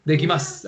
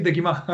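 First: "Dekimasu" ending in a clear s, u silent; "Dekimasu" as "dekimas", final s kept. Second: "dekimasu" cut to "dekimá"; "dekimasu" Chilean-style, ending on an open a; dropped final S. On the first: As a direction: finish "Dekimasu" on an audible s. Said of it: "pronunciar bien las eses". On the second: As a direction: leave the s off the end of "dekimasu". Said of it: "no, no puede decir dekimasu". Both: Shown as a demonstration.

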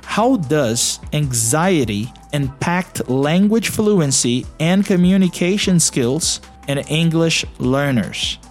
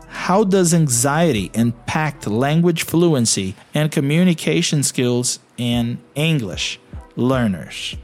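The two takes are said the same way.

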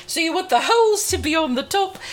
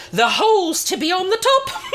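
First: Said in the usual way. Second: Giggling through the words; can't keep a straight face on the innuendo; laughing. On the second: Real, not acted. Host giggling at her own cheeky line about holes.

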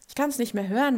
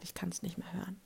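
First: Louder, fed-up outburst rising at the end; an exasperated loud repeat; emphatic. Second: Soft, fed-up mutter under the breath; a soft weary sigh of a line. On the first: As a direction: throw it out with exasperation. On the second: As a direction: say it quietly to yourself, worn out. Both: Real, not acted.

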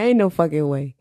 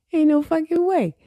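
First: Said in the usual way. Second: Much higher-pitched incredulous repeat; mock disbelief. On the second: Podcaster reacting to listeners in Singapore, high mock disbelief. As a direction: jump way up in pitch, playfully refusing to believe it.

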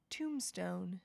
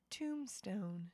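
The two takes are said the same way.

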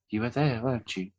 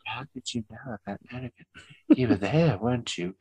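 First: Soft whisper behind a wall; whispering through a door. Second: Soft whisper through a wall; whispering through a door. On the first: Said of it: "I said". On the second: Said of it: "he was whispering through". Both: Retold or imitated.

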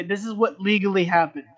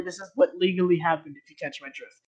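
First: "legally" leaned on with a falling tune; pointed "legally"; stress on legally. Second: Conspiratorial "legally happened"; stress on what. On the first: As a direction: stress "legally" like an official line. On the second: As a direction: lean on "what" and wink. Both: Shown as a demonstration. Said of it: "there is no other story".

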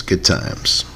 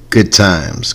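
First: 1 whispered echo. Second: Said in the usual way. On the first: Shown as a demonstration.

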